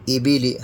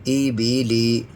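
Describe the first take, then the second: First: All vowels are kept short and even. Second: Some vowels are drawn out longer than others. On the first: The speaker calls it right. "हमें थोड़ा भी नहीं खींचना है" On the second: The speaker calls it wrong. "इस तरह से बिल्कुल हमें पढ़ना नहीं है"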